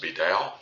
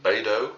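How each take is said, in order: First: Beidou said with a "dow" ending; variant pronunciation. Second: Beidou said with a "doh" ending; alternative pronunciation. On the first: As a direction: say Beidou so it ends like "now". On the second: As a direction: say Beidou so it ends like "dough". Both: Shown as a demonstration. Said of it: "I've heard this pronounced".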